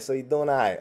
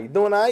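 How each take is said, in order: First: So you doing all right. said flat and falling, as a statement; stating tune. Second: You doing all right? with a high rising question tune; asking tune. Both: Shown as a demonstration. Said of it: "You say you doing all right".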